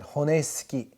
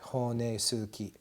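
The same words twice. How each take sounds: First: The u after the s is dropped. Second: The u after the s is clearly pronounced. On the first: The speaker calls it wrong. "I forget to pronounce this U, and I pronounce it honesuki" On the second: The speaker calls it right. "That's correct"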